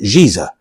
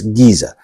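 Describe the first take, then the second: First: The word begins with a soft J sound. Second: The word begins with a hard G sound. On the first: The speaker calls it wrong. "technically you would read it Giza, but it's not" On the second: The speaker calls it right. "It's Giza"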